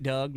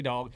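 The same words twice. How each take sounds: First: "Doug" said like the name Doug, rhyming with bug; wrong name, Doug. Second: "Dog" said like the animal, with an open aw vowel; correct name, Dog. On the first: Host mispronouncing the guest's name as "Doug". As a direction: say "Doug" with a short u vowel. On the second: Host correcting herself to say "Dog". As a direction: say "Dog" with the o of dog, not the u of Doug. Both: Shown as a demonstration. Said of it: "not Doug. It's actually Dog".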